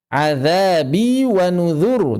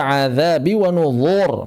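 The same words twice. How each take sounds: First: "Azabi wa nuzur" slow, both z as light dh; high, drawn-out "Azabi wa nuzur" with light dhal; thin dhal. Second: "nuzur" thickened to a dark "nuzhor"; mistaken heavy zha. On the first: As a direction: keep "nuzur" thin at the tongue tip. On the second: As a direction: darken the last syllable of "azabi wa nuzur". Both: Shown as a demonstration. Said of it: "jangan dibaca".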